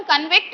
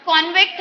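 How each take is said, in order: First: कन्विक्ट with the stress on the second syllable, con-VICT; verb stress. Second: कॉन्विक्ट with the stress on the first syllable, KON-vict; noun stress. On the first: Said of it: "meaning जो है वो noun से verb आ गया". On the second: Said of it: "जब हम कॉन्विक्ट कहते हैं तो वो noun". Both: Shown as a demonstration.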